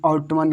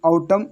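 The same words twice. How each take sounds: First: आउटमन with the N sounded; learner's wrong reading. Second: आउटम closing on M; corrected, N silent. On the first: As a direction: say आउटमन as "out-man". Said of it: "कोई आउटमन कर रहा होगा". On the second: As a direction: say आउटम as "au-tam", no N. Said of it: "but ये आउटम". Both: Shown as a demonstration.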